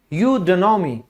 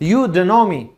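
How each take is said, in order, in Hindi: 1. "don't" शब्द छोटा होकर एक छोटा "d" बन जाता है। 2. "don't" शब्द छोटा होकर एक छोटा "d" बन जाता है।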